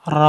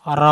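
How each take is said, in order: First: "র" as a loud, drawn-out tongue roll; over-trilled R. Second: "র" with a brief roll and heavy rounded vowel; correct trilled R. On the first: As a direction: overdo the roll on "র", letting it rattle on. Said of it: "এরম করা যাবে না". ("র" অতিরিক্ত কাঁপিয়ে, ভুলভাবে) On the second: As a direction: roll "র" just briefly, then open to o. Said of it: "তাকরার করতে হবে". ("র" অল্প কাঁপিয়ে মোটা করে) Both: Shown as a demonstration.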